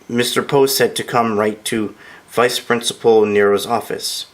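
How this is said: It is said quietly and shyly.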